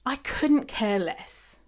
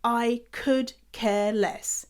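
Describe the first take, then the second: First: I couldn't care less, slow and deliberate; the correct phrase stated slowly; careful couldn't. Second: I could care less, slow and mocking; imitating the wrong phrase; wrong version. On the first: Shown as a demonstration. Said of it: "So the phrase is". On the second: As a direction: drag out could, slowly. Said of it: "I hear".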